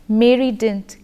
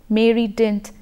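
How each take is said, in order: Both takes have the same delivery.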